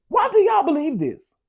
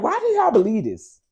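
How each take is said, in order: First: High, incredulous squeal; exasperated disbelief. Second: Incredulous. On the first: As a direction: ask it in shocked disbelief. Repeating the quote, higher. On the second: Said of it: "I was like". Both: Retold or imitated.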